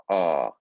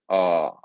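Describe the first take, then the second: First: The R is said with a lazy British sound. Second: The same.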